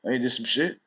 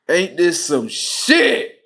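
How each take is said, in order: First: Said in the usual way. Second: Slow, louder, stretched disbelief; drawn out disbelief. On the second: Retold or imitated. Father hearing about the pregnancy, slow and loud disbelief. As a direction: stretch every word, louder.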